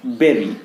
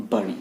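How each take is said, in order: First: "bury" as BER-ee, slowly; berry pronunciation. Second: "bury" as BUR-ee, like hurry; wrong vowel. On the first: Teacher contrasting right with wrong, berry pronunciation. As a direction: say "bury" rhyming with very. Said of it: "bury, not". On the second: Teacher showing what not to say, wrong vowel. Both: Shown as a demonstration.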